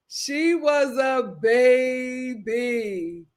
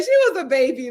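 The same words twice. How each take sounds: First: Very slow, each word stretched long; drawn-out emphasis. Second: Said in the usual way. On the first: Real, not acted. Host excuses the young girl, drawn out for emphasis.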